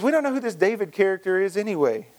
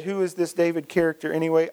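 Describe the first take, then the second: First: Said in the usual way. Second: Mock Southern accent on an insult; goofy Southern voice. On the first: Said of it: "I don't know why I did that". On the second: Preacher voices Nabal insulting David, goofy Southern voice. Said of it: "goofy Southern voice when I said that".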